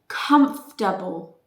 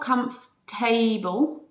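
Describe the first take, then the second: First: The ending is reduced to a short weak syllable. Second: The ending is said as the full word able. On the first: The speaker calls it right. "That's the sound of that pronounce of that uh, suffix" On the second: The speaker calls it wrong. "It's not comfortable"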